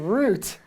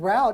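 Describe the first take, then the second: First: It is said the British way, rhyming with boot. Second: It is said the American way, rhyming with out. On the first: "not route" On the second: "you said route"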